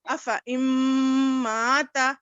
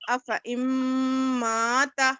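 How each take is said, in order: Both takes have the same delivery.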